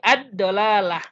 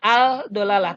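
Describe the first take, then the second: First: The L sound merges into a doubled D. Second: The L sound is pronounced clearly before D. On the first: The speaker calls it right. "tapi ad-dolalah" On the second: The speaker calls it wrong. "bukan al-dolalah"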